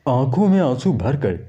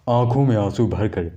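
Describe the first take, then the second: Both takes have the same delivery.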